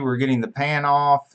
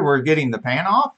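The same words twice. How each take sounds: First: The voice sounds flat and unenthusiastic. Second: The voice sounds lively and enthusiastic. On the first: The speaker calls it wrong. "that doesn't sound enthusiastic at all" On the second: The speaker calls it right. "You can do better than that"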